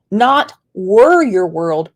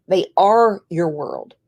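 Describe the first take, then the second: First: "were" drawn out and leaned on; slow, pointed weight on "were"; stress on were. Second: "are" stressed as the correction. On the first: Repeats a correction of past tense. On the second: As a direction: put the weight firmly on "are". Repeats the corrected present tense. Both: Retold or imitated.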